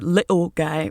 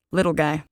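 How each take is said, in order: First: A hint of a UK accent on "little guy"; understated British "little guy"; light British accent. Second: A hint of a UK accent on "Little guy"; understated British "Little guy", belittling; light British accent. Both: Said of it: "Of course, in his accent".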